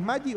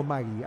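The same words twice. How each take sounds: First: "Maggi" like MA-lli; pronunciation contrast. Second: "Magui" with a g sound in the middle; "Magui" with a Spanish g before the i; pronunciation contrast. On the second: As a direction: say "Magui" as MA-gui, g as in guitarra. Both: Shown as a demonstration. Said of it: "¿Y es Maggi o Magui?".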